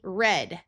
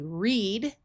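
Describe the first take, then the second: First: The vowel is a short E sound. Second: The vowel is a long E sound. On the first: It refers to the past tense. "with a short E" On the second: It refers to the present tense. "the present tense"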